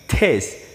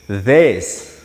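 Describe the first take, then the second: First: It begins with an exploded t sound. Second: It begins with a soft, unexploded sound. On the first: The speaker calls it wrong. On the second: The speaker calls it right.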